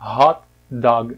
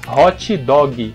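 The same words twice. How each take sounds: First: It is said with English pronunciation. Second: It is said with Brazilian Portuguese pronunciation. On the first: "se for pronunciar certinho em inglês" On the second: "A gente fala hot dog"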